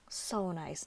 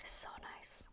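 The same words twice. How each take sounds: First: Said in the usual way. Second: Breathy whisper, savoring it; whispered so nice. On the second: Real, not acted. To viewers while testing the pen, whispered admiration. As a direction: hush it, admiring the ink. Admiring the pen's ink flow.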